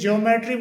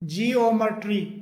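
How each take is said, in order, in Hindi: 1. शुरुआत को एक अक्षर में दबाकर बोला जाता है। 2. शुरुआत को दो अक्षरों में बोला जाता है। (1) "जिसे ज्योमेट्री बोला जाता है सामान्यतः" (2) "इसका सही जो प्रोनाउंसिएशन होता है"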